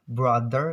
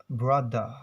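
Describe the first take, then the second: First: "Brother" with the final r sounded; American pronunciation. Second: "brother" as bruh-duh, no final r; R-less British pronunciation. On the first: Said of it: "Brother in American accents". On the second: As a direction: say "brother" British style, dropping the r. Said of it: "British accents". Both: Shown as a demonstration.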